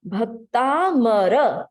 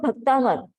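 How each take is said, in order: First: The word ends with a full final vowel. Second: The word ends without its final vowel. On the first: The speaker calls it right. "we need to say it completely" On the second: The speaker calls it wrong. "not bhaktamar"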